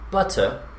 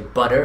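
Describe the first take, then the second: First: The middle consonant is a clear T sound. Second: The middle consonant is a soft D-like sound. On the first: This is not the usual American pronunciation. The speaker calls it wrong. "and not butter" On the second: This is the usual American pronunciation. The speaker calls it right. "why you say butter"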